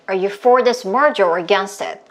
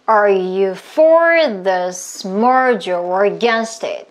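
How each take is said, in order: First: The sentence is spoken at the fastest pace. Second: The sentence is spoken at a slow pace. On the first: "조금만 더 빠르게" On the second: "숨 마시고"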